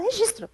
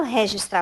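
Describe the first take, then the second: First: "registro" with a closed, light first syllable; claimed correct pronunciation. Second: "registrar" with an open RÉ-gistrar start; disputed pronunciation. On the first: Correcting the boss's claim, "registro" with unexaggerated first vowel. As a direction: insist on "registro" without the open RÉ. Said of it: "eu não falo registrar". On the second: Denying she talks that way, "registrar" said RÉ-gistrar. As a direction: stress an open first vowel in "registrar". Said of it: "você fala registrar". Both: Retold or imitated.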